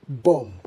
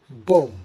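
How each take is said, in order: First: The final B sound is silent. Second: The same.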